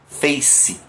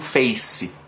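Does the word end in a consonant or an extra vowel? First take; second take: consonant; extra vowel. First: The word ends cleanly on the consonant. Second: The word ends with an added vowel sound. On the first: The speaker calls it right. "É mais parecido com isso" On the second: The speaker calls it wrong. "essa vogal que a gente coloca no final, ela não é necessária"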